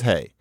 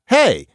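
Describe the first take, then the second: First: Hey is said low, falling, without emphasis. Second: Hey is said with strong emphasis.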